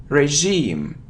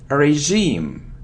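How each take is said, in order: The two takes are said the same way.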